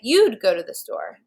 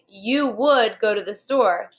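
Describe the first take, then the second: First: The words 'you would' are contracted to 'you'd'. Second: The words 'you would' are said in full. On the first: "you could say" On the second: "Instead of saying"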